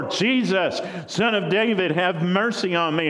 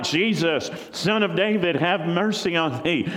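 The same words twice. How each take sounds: First: Higher, more desperate pleading call; crying out louder. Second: High pleading call across a crowd; crying out. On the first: Blind beggar cries to Jesus again, more desperate call. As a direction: push the plea further, persistent. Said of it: "he cried out more". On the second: Blind beggar calls to Jesus over the crowd, pleading cry. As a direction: call out to be heard over everyone. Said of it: "And he starts crying out". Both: Acted.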